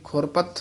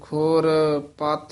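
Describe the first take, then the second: First: The two parts run together as one word. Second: The two parts are said as separate words. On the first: The speaker calls it wrong. "ਇਕੱਠਾ ਨਹੀਂ ਬੋਲ ਦੇਣਾ" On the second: The speaker calls it right. "ਵੱਖਰੇ ਵੱਖਰੇ ਪਦ ਬੋਲਨੇ ਹਨ"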